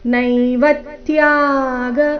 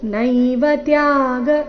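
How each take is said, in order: First: The syllable 'va' is said with clear stress. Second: The syllable 'va' carries no extra stress. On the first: The speaker calls it right. "ಆಘಾತದ ಸಹಿತ ನೈವ ತ್ಯಾಗ ಈ ರೀತಿ ಬರಬೇಕು" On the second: The speaker calls it wrong. "ಈ ರೀತಿ ಹೇಳಬಾರ್ದು"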